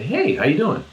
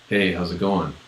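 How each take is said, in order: First: It sounds warm and interested. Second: It sounds cold and uninterested.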